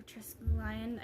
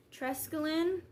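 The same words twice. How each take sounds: First: Trescaline with an "eye" sound, like "lion"; long-i variant. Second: Trescaline ending in "lin"; short-i ending. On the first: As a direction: say Trescaline slowly as tres-LY-un, trying it out. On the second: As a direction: say Trescaline as TRESS-kuh-lin. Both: Shown as a demonstration. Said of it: "I think it's Trescaline".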